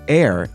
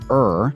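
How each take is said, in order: First: The vowel sounds like the one in hair. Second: The vowel sounds like the one in her. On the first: "air is still considered acceptable" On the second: "pronouncing it correctly as er"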